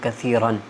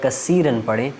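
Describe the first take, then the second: First: The middle consonant is a soft 'th' sound. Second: The middle consonant is a hissing 's' sound. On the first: It means a lot, many. The speaker calls it right. "कसीरन सा के साथ होता है" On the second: It means broken. The speaker calls it wrong. "सा की जगह हम सीन की आवाज़ निकालें"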